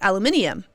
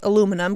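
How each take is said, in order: First: It is said the British way, with five syllables. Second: It is said the American way, with four syllables. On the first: "Emily Blunt says aluminium because mm-hmm. she is British" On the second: "say aluminum because they're American"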